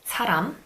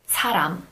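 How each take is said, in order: Both takes have the same delivery.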